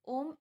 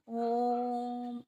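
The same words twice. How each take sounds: First: The word is said quickly with a short vowel. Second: The vowel is drawn out long and vibrating. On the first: The speaker calls it wrong. "ऐसे तो कहा नहीं जाता ना" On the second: The speaker calls it right. "एक vibration create हो रही है और बहुत ज़्यादा समय लग रहा है"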